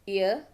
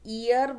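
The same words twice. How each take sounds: First: No y sound is heard inside the word. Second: A y sound is heard inside the word. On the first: The speaker calls it right. "कहीं भी मैंने य sound बीच में नहीं लाया है" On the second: The speaker calls it wrong. "Indianise करके बोलेंगे ... य साउंड आएगा"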